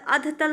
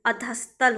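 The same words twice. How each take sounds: First: अधतल without an s; wrong form अधतल. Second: अधस्तल with s before t; correct form अधस्तल. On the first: Teacher rejects the form, no s in अधतल. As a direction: say अधतल as adh-tal. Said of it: "नहीं होता". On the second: Teacher corrects students, audible s in अधस्तल. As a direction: say अधस्तल as a-dhas-tal. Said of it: "होता है". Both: Shown as a demonstration.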